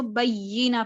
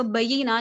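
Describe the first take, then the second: First: बय्यिना with a firm doubled y; with tashdid. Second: बय्यिना with a light, single y; quick बय्यिना, no weight on the y; without tashdid. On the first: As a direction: press and hold the य्य in बय्यिना. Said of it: "उसके ऊपर तशदीद है". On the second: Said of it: "नहीं पढ़ रही". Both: Shown as a demonstration.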